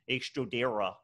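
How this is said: The R is American, made up front.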